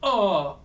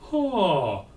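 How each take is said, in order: First: The vowel starts with a hard glottal catch. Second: The vowel starts cleanly, neither breathy nor hard. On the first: The speaker calls it wrong. "And we don't want" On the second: The speaker calls it right. "the compromise"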